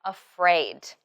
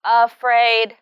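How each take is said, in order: First: Afraid with weight on fraid, falling; stress on second syllable. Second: Afraid with both syllables equally loud and level; without word stress. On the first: Shown as a demonstration. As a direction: lean on the second half of afraid. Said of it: "pay attention to the word stress in afraid". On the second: Retold or imitated. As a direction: imitate afraid evenly weighted, neither syllable standing out. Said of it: "without stress".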